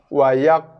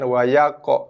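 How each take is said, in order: First: The final q stops flat without a bounce. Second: The final q is released with a bounce. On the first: The speaker calls it wrong. "hanya qaf tak diqalqalahkan" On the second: The speaker calls it right. "Sepatutnya dilantunkan"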